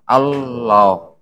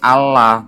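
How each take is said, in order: First: The L sound is doubled and held. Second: The L sound is single and short. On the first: The speaker calls it right. "karena ada tasdidnya, makanya bacanya apa?" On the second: The speaker calls it wrong.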